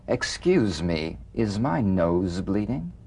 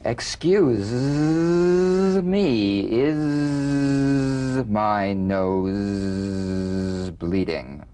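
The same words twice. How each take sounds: First: The Z sounds are short and ordinary. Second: The Z sounds are held long and buzzing.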